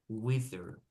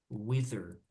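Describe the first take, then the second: Both takes have the same delivery.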